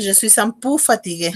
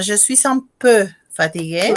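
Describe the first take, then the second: First: Je suis un pu fatigué with peu said pu, like pou; peu said wrong as pu. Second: Je suis un peu fatigué with peu as a rounded closed eu; peu said right. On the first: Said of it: "a dire". (peu mal prononcé como pu) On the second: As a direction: say peu clearly, lips rounded. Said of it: "De dire". (peu bien prononcé, arrondi) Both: Shown as a demonstration.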